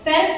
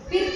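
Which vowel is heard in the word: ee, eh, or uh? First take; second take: eh; ee. First: The vowel sounds like 'eh'. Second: The vowel sounds like 'ee'. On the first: "ಪೆರ್ಕ್ ಅನ್ನಲ್ಲ" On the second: "ಪಿರ್ಕ್ ಅನ್ನಲ್ಲ"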